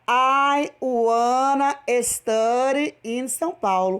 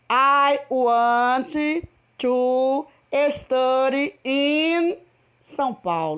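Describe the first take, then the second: First: Want to is reduced to one word, wanna. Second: Want to is said as two full words. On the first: "no lugar de você falar want to, você fala wanna" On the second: "Em inglês ainda ficam seis palavras"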